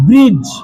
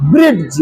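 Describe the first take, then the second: First: "ब्रिज" with only a j at the end; silent d. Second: "ब्रिज" with a hard d before j; falling "ब्रिज" said as "brid-j"; mistaken pronunciation. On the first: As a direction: glide from vowel to j in "ब्रिज". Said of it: "तो क्या पढ़ेंगे इसको". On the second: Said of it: "क्योंकि डी से ड होता है". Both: Shown as a demonstration.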